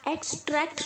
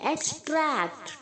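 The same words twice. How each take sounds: First: The stress is on the first syllable. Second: The stress is on the second syllable. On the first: The speaker calls it wrong. "Extract नहीं" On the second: The speaker calls it right. "Tract पे आपको जोर देना है"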